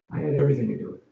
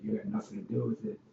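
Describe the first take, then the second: First: "everything" punched louder; stress on everything. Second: Said in the usual way. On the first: Shown as a demonstration. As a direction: hit the word "everything" hard.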